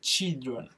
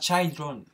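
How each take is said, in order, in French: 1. La première voyelle est un 'i' bref. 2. La première voyelle sonne comme 'eye'. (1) "c'est children" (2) "C'est pas children"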